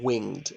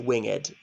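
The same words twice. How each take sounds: First: The word is said with one syllable. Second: The word is said with two syllables. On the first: It breaks the poem's metre. The speaker calls it wrong. "not winged" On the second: It fits the poem's metre. The speaker calls it right. "it's supposed to be winged"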